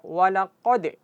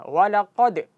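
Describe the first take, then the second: The two takes are said the same way.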